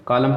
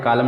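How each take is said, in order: First: Said in the usual way. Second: Column with the silent N sounded after M in "कॉलम"; गलत उच्चारण. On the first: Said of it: "कॉलम पढ़ते हैं". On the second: Shown as a demonstration. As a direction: say "कॉलम" wrongly, adding an N at the end. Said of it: "में नहीं पढ़ते क्योंकि". ("कॉलम" के अंत में न बोलते हुए)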